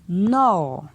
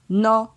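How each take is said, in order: First: The syllable has a falling tone. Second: The syllable has a mid tone. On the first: "ton descendant" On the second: "Ton moyen"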